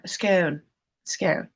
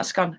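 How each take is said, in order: First: "scone" with a long o, rhyming with bone; proper scone. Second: "scone" with a short o, rhyming with gone; everyday scone. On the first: Streamer correcting herself, "scone" rhyming with bone. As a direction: say "scone" carefully, to rhyme with bone. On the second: Streamer giving the form she rejects, "scone" rhyming with gone. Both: Shown as a demonstration. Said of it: "Gotta say it properly".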